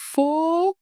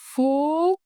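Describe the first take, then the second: The two takes are said the same way.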